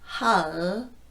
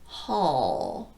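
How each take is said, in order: First: The final L is light and clear. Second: The final L is dark and hollow. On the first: "If I use a light L, it will sound like" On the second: "And if I use a dark L, it will sound like"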